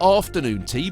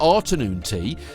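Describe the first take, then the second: First: The first syllable sounds like 'after'. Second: The first syllable sounds like 'art'. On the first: It is the ordinary meal name. "Not afternoon tea" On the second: It is a pun on an art class. "but afternoon tea"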